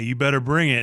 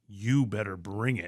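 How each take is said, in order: First: It is said in a light, playful tone. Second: It is said in a serious, menacing tone. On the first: The remark is a playful tease, not meant seriously. "in a jokey way" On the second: The remark sounds like a real threat. "That's like a threat"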